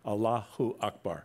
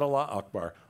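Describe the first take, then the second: First: An extra u sound joins Allah to Akbar. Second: Allah runs straight into Akbar with no vowel. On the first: The speaker calls it right. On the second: The speaker calls it wrong. "not Allah Akbar"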